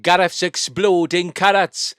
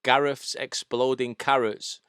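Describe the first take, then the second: First: Slow, loud, high Welsh lilt; Welsh accent. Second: Slow, light Welsh accent; Welsh accent starter. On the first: Demonstrating the accent to co-host, full Welsh. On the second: Teaching co-host the starter phrase, lightly Welsh. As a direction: ease slowly into a hint of Welsh. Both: Shown as a demonstration. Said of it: "wanna do a Welsh accent".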